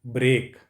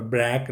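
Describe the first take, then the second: First: ब्रेक said "brek" with a clear rolled r; the right "brek" for ब्रेक, crisp r after b; correct pronunciation. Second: ब्रेक said as "blek", an l in place of the r; the mistaken "blek" for ब्रेक, shown so students avoid it; wrong pronunciation. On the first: Teacher gives students the right ब्रेक, "brek" with an r. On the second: Teacher warns students: ब्रेक wrongly said as "blek". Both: Shown as a demonstration. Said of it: "और ब्रेक मत बोलना".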